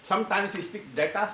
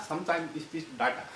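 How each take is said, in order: First: "data" with an "ay" in the first syllable; long "ay" vowel in "data"; first pronunciation of data. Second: "data" with an open "ah" in the first syllable; second pronunciation of data. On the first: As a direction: say "data" as DAY-ta. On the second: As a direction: say "data" as DAH-ta. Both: Shown as a demonstration. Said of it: "change in pronunciation".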